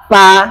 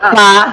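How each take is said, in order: No difference in how they are said.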